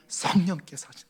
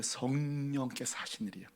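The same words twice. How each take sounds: First: Said in the usual way. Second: 성령께서 said soft and low, falling quietly; softer take of 성령께서 하신, nearly a murmur; hushed, gentle. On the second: Acted. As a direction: murmur 성령께서 like a secret shared. God explains gently.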